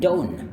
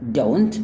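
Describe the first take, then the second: First: The T after the N is dropped. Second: The T after the N is clearly pronounced. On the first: "mereka akan bilang don't" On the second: "Or don't"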